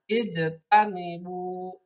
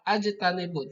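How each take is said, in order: First: The word begins with an 'i' vowel. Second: The word begins with an 'a' vowel. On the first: The speaker calls it right. "tapi ijtanibu" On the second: The speaker calls it wrong. "ajtanibu tidak seperti itu"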